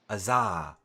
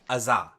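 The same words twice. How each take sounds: First: The final vowel is drawn out too long. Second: The final vowel is short and clipped. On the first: The speaker calls it wrong. "You're on to at the end a little too long" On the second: The speaker calls it right. "So just Azah"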